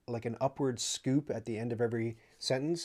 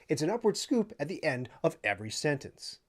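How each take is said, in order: First: It is said in a plain, natural tone. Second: It is said in a mock informative newsreader tone.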